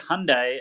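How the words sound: It is said with an American pronunciation. "They say Hyundai"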